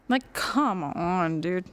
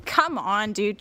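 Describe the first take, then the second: First: Slow, dragged-out exasperation; slow exasperated drawl; disgusted drawl. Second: Said in the usual way. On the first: Real, not acted. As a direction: stretch it out in disbelief. Exasperated drawn-out repeat.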